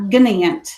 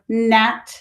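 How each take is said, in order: First: The word starts with a hard G sound. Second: The word starts with a plain N sound. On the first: The speaker calls it wrong. "It's not gnant" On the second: The speaker calls it right. "So this is the word gnat"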